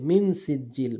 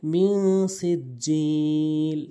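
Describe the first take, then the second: First: মিন সিজ্জিল short, clear n, no hum; missing ghunnah. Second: Slow মি held as a nasal hum, long সিজ্জিল; ghunnah. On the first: Teacher showing most people's mistake, clipped মিন. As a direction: say মিন quickly without nasal hold. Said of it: "অধিকাংশ লোক যে ভুলটি করে". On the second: Teacher showing the rule, nasalised মি. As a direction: hum মি through the nose, then stretch সিজ্জিল. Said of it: "নাকের ভিতর নিয়ে গুণনা করতে হবে". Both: Shown as a demonstration.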